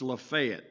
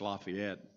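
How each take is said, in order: First: Lafayette is said the local Tennessee way. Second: Lafayette is said the standard northern way. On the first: "but it's Lafayette in um, in Tennessee" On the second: "it's Lafayette up here"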